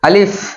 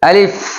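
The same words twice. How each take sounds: First: The word is said short and quick. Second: The word is said short and quick.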